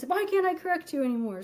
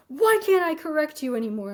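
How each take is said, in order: First: Retold angry outburst, faster. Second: Retold angry outburst. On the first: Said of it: "And so he does this". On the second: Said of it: "slams his hand on the de".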